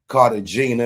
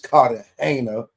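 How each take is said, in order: First: It is said with an American pronunciation. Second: It is said with a non-American pronunciation. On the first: "if you're from America" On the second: "if you don't, if you're not"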